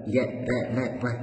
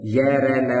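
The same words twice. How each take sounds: First: य, र, ल, व said gently, softer, with little breath; य, र, ल, व धीरे से, हल्के स्वर में; soft unaspirated sounds. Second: Said in the usual way. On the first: Shown as a demonstration. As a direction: ease out य, र, ल, व lightly with no push of air. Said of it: "ऐसे धीरे से ही तो बोलेंगे ये". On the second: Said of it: "ऐसे धीरे से ही तो बोलेंगे".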